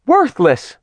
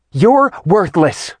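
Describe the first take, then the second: First: High shriek, far off; shriek from another room. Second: Slow, high shriek, far off; shriek from another room. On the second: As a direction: drag out the shriek from the next room. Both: A narrator's reading. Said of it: "Artemis's shriek from the other room".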